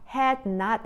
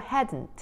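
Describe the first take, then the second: First: It is said as two full separate words. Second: It is said as one contracted word. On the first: "여기서 had not 이거를요" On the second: "hadn't 이렇게 발음하시면 돼요"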